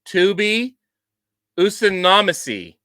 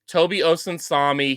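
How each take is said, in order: First: The name is garbled with changed, extra syllables. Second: The name is said with its normal syllables. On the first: The speaker calls it wrong. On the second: The speaker calls it right.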